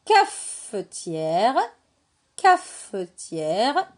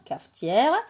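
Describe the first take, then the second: First: CAFETIÈRE very slowly, with the F held apart; segmented word. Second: Said in the usual way. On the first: Shown as a demonstration. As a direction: break "cafetière" after a long, separate F. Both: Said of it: "Est-ce que dans cafetière, j'entends feu".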